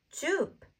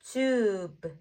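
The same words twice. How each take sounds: First: "tube" said short with high, falling pitch; short, joined-up syllable. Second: "Tube" stretched slowly with a long vowel; drawn-out blend. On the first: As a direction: snap "tube" into one quick syllable. Teacher repeats the blend quickly. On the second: Teacher blends sounds slowly first. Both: Shown as a demonstration.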